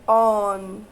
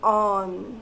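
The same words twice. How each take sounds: First: The vowel sounds like an open aw. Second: The same.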